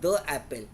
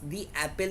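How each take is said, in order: First: The word 'the' is pronounced 'thuh'. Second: The word 'the' is pronounced 'thee'. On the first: The speaker calls it wrong. "not the apple" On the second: The speaker calls it right. "any word beginning with a vowel"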